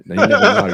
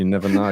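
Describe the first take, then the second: First: Higher and louder mock Savile through a laugh; hammed-up Jimmy Savile accent. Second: Said in the usual way. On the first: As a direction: ham up the Savile twang, laughing. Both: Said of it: "Can you do that accent one more time".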